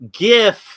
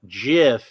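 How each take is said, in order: First: It starts with a hard G sound. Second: It starts with a soft J sound. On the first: The speaker calls it right. "I stick with" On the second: The speaker calls it wrong. "pronounces it with with a J, with a soft G sound"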